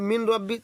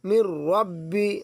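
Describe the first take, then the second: First: The n is pronounced clearly before the r. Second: The n merges into a doubled r sound. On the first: The speaker calls it wrong. "আর কেউ যদি বলে মিন রব্বি, তাহলে তার পড়া ভুল হয়ে যাবে।" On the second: The speaker calls it right.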